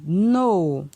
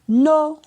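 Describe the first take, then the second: First: The syllable is said on a falling tone. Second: The syllable is said on a high tone. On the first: "ton descendant" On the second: "ton haut"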